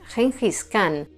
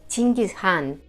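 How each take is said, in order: First: The name is said in the usual Spanish way. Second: The name is said closer to Mongolian. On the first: This is the commonly known form. "el apelativo por el que todos lo conocemos" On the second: This is how it sounds in the original language. "en mongol se pronunciaría algo así como"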